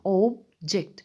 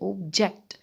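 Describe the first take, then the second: First: The stress is on the first syllable. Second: The stress is on the second syllable. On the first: "पहले syllable पर आपको stress देना" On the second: "second syllable पर object में stress देना होता है"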